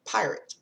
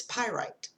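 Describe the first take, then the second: First: "pirate" said PIE-rit, like a sea robber; wrong pronunciation. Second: "pyrite" said PIE-rite, with a long i at the end; corrected pronunciation. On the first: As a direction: say "pirate" with a short, weak second syllable. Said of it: "I've been pronouncing it". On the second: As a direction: say "pyrite" so it ends like the word right. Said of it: "I've been pronouncing it wrong". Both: Shown as a demonstration.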